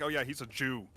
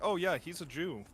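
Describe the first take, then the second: First: It is said with heavy, angry weight. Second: It is said in a calm, neutral tone. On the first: The speaker calls it wrong. "Not with anger in your heart" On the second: The speaker calls it right. "I like say, like"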